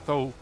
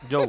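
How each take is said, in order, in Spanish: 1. El nombre se dice de forma española. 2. El nombre se dice como 'Joe', de forma china. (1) "él se escribe Zhou, o sea, Zhou" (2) "bien pronunciado en chino es Joe"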